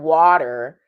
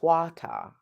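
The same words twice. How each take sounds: First: It is said with an American accent. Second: It is said with a British accent. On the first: "water in American English" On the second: "in British, with the British pronunciation"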